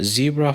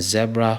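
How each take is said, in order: First: "Zebra" as ZEE-bruh, long ee; American pronunciation. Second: "zebra" as ZEB-ruh, short e; non-American pronunciation. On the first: Teacher showing learners the American word, "Zebra" as ZEE-bruh. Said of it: "Zebra for the Americans". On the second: Teacher showing the rest-of-world word, "zebra" as ZEB-ruh. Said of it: "zebra for the rest of the world". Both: Shown as a demonstration.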